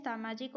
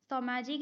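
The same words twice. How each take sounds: First: "सामाजिक" with long first a, saa-maa-jik; correct form saamajik. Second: "सामाजिक" with short first a, sa-maa-jik; wrong form samajik. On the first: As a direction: stretch the first vowel of "सामाजिक". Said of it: "सामाजिक होता है". ("सामाजिक" में सा लंबा बोलें) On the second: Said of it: "सामाजिक नहीं होता है". ("सामाजिक" को स-माजिक बोलें) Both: Shown as a demonstration.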